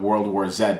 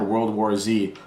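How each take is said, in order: First: The Z is said 'zed', Canadian style. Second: The Z is said 'zee', American style.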